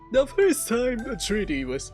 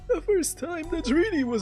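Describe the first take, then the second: First: It is read in the speaker's ordinary voice. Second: It is read in a put-on old man voice.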